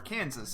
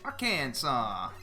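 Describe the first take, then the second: First: The name ends like 'Kansas', with 'sas'. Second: The name ends with a 'saw' sound. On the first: The speaker calls it wrong. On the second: The speaker calls it right.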